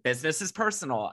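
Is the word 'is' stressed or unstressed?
unstressed. The word 'is' is not stressed.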